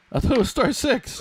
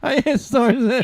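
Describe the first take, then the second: First: High, loud exasperated cry; frustrated groaning. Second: Very high, loud exasperated wail; frustrated groaning. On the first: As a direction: wail it out in disbelief. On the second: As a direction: howl it in disbelief. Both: Real, not acted. Frustrated, muted in the meeting.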